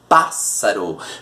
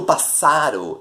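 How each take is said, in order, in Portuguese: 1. A tônica cai na primeira sílaba. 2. A tônica cai em uma sílaba posterior. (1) "eu digo pássaro" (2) "Eu não digo pássaro"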